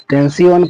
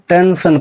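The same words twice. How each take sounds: First: "टेंसियन" with the ending split into "si-on"; wrong pronunciation. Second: "टेंशन" ending in one syllable, "san"; correct pronunciation. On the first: Teacher warning it is wrong, "टेंसियन" as ten-si-on. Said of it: "पढ़ेंगे तो गलत होगा". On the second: Teacher giving the right reading, "टेंशन" as ten-san. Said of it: "इस word को हम". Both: Shown as a demonstration.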